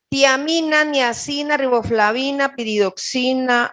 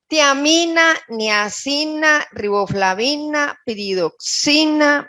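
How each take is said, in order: First: The list is read at a fast pace. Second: The list is read at a slow pace. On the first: The speaker calls it wrong. "Estoy hablando muy rápido" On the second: The speaker calls it right. "más despacio"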